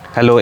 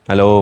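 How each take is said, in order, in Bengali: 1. উল্টো দিকে মুখ করে বলা, নয়েজ ক্যান্সেলেশন ছাড়া। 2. উল্টো দিকে মুখ করে বলা, নয়েজ ক্যান্সেলেশন চালু করা। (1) "উল্টো দিকে ঘুরছি" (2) "নয়েজ ক্যান্সেলেশন মোডও এবার অন হয়ে গেছে"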